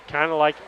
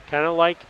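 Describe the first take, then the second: Both takes have the same delivery.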